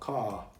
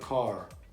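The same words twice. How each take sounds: First: The final R is silent. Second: The final R is clearly pronounced. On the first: "ele não pronuncia o R, nesse caso, ó, car, car, car. Britânico" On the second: "Americano, car"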